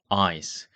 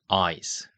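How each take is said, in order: No difference in how they are said.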